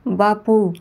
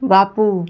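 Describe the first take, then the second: First: Calling again. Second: Loud call of Bapu through a shut door; shouting a name. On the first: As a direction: repeat Bapu a touch less loud. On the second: Grandmother shouts Bapu at his closed door, louder. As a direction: bang on the door and yell Bapu. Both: A narrator's reading. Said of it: "ओरडली".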